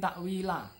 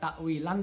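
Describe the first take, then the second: First: The word ends with a long vowel. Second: The word ends with an n sound. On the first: The speaker calls it right. "tapi takwila. Mat liwat takwila" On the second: The speaker calls it wrong. "Bukan diwaca takwilan"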